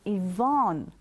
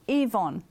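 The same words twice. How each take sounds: First: The stress is on the second syllable. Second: The stress is on the first syllable. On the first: This is how many Americans say it. "The E is the lower part and the Von is the emphasis" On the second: This is how Australians say it. "We emphasize the E, and the Von is the lesser part of the name"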